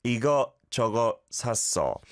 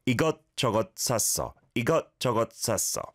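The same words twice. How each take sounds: First: 이것저것 with the 시옷 as a T caught in the throat. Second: 이것저것 with each 것 cut off like a held T; caught T in 이것저것. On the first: Teacher models 이것저것 for a caller, T caught in throat. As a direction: stop the 것 sharply at the back of the throat. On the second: Teacher repeats 이것저것 샀어 so the caller hears the caught T. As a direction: clip the 것 endings in the throat, fast. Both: Shown as a demonstration. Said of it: "The single 시옷 받침 is like a T that's caught".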